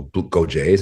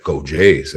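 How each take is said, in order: First: "Go Jays?" rising at the end; tentative question. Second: "Go Jays" falling firmly at the end; affirming reply. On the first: Fan greeting a stranger in Jays gear, tentative question. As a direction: float "Go Jays?" as a question, unsure of the reply. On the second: Stranger returning a fan's greeting, affirming reply. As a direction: answer "Go Jays" as a settled statement. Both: Retold or imitated.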